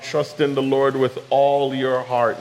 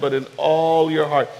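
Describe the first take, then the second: First: Said in the usual way. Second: All pressed as the key word; stress on all. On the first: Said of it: "Not part, not some". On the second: Shown as a demonstration. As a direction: lean on all in all your heart. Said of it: "Not part, not some, not ninety-nine percent".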